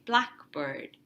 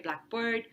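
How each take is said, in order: First: The stress is on the first part, black. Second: The stress is on the second part, bird. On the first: It names a compound word. The speaker calls it right. "In a compound, the main stress is always on the first word" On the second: It sounds like a phrase, not a compound. The speaker calls it wrong. "You don't say ... with the stress on the second word"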